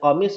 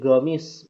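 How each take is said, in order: First: The word begins with a k-like qaf sound. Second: The word begins with a g sound. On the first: This is the original Arabic pronunciation. "yang tadinya komis" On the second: This is how Yemenis pronounce it in their dialect. "logat huruf qafnya diganti jadi go"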